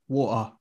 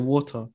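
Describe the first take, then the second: First: It is said in a Cockney accent. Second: It is said in a non-Cockney accent. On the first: Other people from the area say it this way. "there's a Cockney accent. And they'll say like water" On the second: The speaker personally says it this way. "But I say water"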